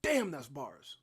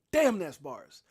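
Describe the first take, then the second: First: Said in the usual way. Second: Louder, hyped repeat of the phrase; excited exclaim. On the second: Real, not acted. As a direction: hype it up the second time. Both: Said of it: "repeats phrase, second time louder".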